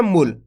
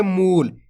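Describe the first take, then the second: First: "मूल" cut short, as mul with a brief u; short clipped vowel. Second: "मूल" with the oo pulled out long; long drawn vowel. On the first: Teacher showing learners how not to read it, short vowel. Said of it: "ऐसे नहीं पढ़ना". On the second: Teacher showing learners the right reading, long drawn vowel. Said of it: "ऐसे पढ़ना, केच के मूल". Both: Shown as a demonstration.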